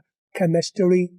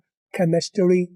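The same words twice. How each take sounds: First: The R is a quick tap. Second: The R is a quick tap.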